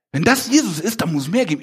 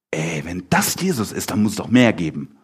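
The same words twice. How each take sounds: First: Raised pitch, urgent acted longing; eager yearning. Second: Low-pitched, casual supposition as Peter; understated, speculative acted quote; musing aloud. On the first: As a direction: voice a follower hungry for more. Second, yearning take of Peter. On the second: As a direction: voice a hunch in a lower tone. First take of Peter's reasoning.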